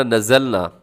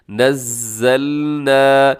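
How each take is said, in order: First: नज़लना with a short single ज़; नज़लना said too light; wrong single z. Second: नज़्ज़लना with the ज़ doubled and held, slow; नज़्ज़लना with firm tashdeed; correct doubled z. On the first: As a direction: rush the ज़ in नज़लना as the mistake. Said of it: "इसको ऐसे नहीं पढ़ना". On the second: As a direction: press hard on the doubled ज़्ज़. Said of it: "मजबूती के साथ उस लफ्ज़ को पढ़ना". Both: Shown as a demonstration.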